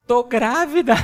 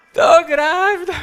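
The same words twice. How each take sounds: First: Loud laughing announcement; laughing reveal. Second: High, loud, slow mock announcement; mock dramatic reveal. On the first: Retold or imitated. Pastor retelling his wife's pregnancy news, laughing loudly. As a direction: burst out with the news through a laugh. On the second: Pastor acting out his wife announcing the pregnancy, hammed-up. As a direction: stretch it like a big theatrical reveal. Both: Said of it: "sabe o que ela me fala".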